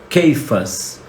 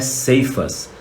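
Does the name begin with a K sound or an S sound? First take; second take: K sound; S sound. First: The name begins with a K sound. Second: The name begins with an S sound. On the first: The speaker calls it right. "a pronúncia em hebraico é Keifas" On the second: The speaker calls it wrong. "A pronúncia não é Ceifas"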